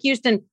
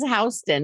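First: The first syllable sounds like "hew". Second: The first syllable sounds like "house". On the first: The speaker calls it wrong. "which looks like Houston" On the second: The speaker calls it right. "but actually is Houston"

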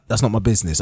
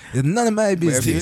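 First: It is said in his own plain voice. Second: It is said imitating the man's accent.

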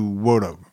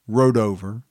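First: The name is said closer to the native way. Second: The name is said in an anglicized way. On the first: "the real pronunciation is probably somewhere closer to Wodover" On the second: "what I'm calling Rodover"

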